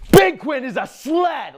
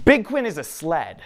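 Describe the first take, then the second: First: Full-out high, drawn-out shout; yelling child. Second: Lightly voiced small boy, a bit higher and louder; little boy's announcement. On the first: Acted. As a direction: bellow it slowly like a kid rallying every child around. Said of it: "and yells". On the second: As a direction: announce it like an earnest little kid. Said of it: "he says with his, with his big".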